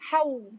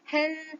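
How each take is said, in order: First: The n merges into a following w sound. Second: The syllable ends with a clear n sound. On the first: The speaker calls it right. "Mestilah haw, mestilah jelas dan idgham kamil" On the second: The speaker calls it wrong.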